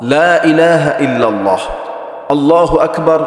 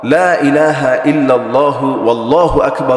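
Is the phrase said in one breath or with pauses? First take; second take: with pauses; one breath. First: It is said slowly with pauses between phrases. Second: It is said quickly in one linked breath. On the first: "আমি তো থেমে থেমে বললাম" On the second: "এক টানে দ্রুত বলতে গেলে এভাবেও বলে"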